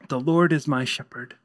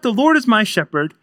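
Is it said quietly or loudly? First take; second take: quietly; loudly. First: It is said quietly and nervously. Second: It is said loudly and forcefully.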